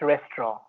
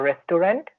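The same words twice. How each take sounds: First: The word is said in a British accent. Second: The word is said in an Indian accent. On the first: "when it comes to British accents" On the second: "in India we used to say"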